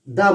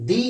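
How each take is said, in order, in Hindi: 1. स्वर छोटा है, 'thuh' की तरह। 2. स्वर लंबा है, 'thee' की तरह। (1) "जहां कॉन्सोनेंट का साउंड होता है वहां दा बोला जाता है" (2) "जहां वाउल का साउंड होता है वहां दी बोला जाता है"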